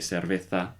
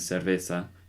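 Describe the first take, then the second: First: The z sounds like a lisped th. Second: The z sounds like an s. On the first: This is how it is said in Spain. "they would say cerveza, and put a little lisp on the Z's" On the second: This is how it is said in South America. "instead of saying"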